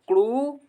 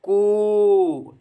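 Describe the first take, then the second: First: The vowel is held for a medium time. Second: The vowel is held for a long time. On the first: "दूसरी बार दो मात्रा" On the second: "तीसरी बार तीन मात्राओं"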